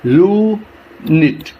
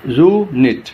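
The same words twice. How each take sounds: First: "unit" slowly in two separate parts; "unit" drawn out and broken at the syllable; split into syllables. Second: "unit" with only a short break between syllables; "unit" less drawn out, syllables still clear; quicker syllable demo. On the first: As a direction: stretch the first syllable of "unit", pause, then the second. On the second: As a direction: say "unit" in two parts, closer together. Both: Shown as a demonstration. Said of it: "टू parts में divide कर देते हैं".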